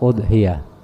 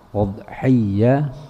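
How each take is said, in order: First: The y sound is short and single. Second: The y sound is held long and doubled. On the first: "boleh juga ditakhfifkan, diringanin" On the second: "Boleh ya-nya ditasydidkan"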